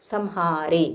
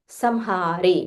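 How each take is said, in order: Both takes have the same delivery.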